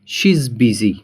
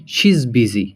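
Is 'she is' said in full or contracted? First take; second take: contracted; contracted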